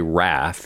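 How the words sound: It is said in an American accent.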